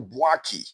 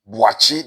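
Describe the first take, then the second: First: The middle consonant is a k sound. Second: The middle consonant is a ch sound. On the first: This is how foreigners say it. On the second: This is how people at home say it.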